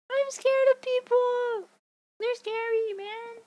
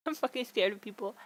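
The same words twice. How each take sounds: First: High, drawn-out comic whine of fear; hammed-up scared cry; mock wail. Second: Said in the usual way. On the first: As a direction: wail it in exaggerated fright, trailing off. Wails comic fear of people.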